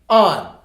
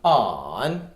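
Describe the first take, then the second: First: The pitch falls sharply from high. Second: The pitch dips low, then rises. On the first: "On on fourth tone" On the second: "On on third tone"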